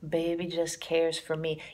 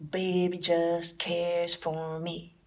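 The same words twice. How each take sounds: First: Put-on "Baby just cares for me" slow, leaning on the beat; swung title. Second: Put-on slow "Baby just cares for me", weight on each quarter note; swung quarter notes. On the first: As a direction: speak the title so it swings. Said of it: "Even the title swings". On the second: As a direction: lay every word on the quarter note. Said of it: "put the emphasis on the quarter note". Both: Shown as a demonstration.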